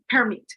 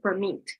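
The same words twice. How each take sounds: First: The stress is on the first syllable. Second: The stress is on the second syllable. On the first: It is used as a noun. "In the noun, you put it in the first syllable" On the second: It is used as a verb. "when it's working as a verb, you put it in the second syllable"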